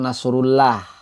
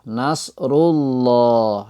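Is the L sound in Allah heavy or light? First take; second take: light; heavy. First: The L is pronounced thin and light. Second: The L is pronounced thick and heavy. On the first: The speaker calls it wrong. "bukan nasrullah" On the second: The speaker calls it right. "dibaca tebal"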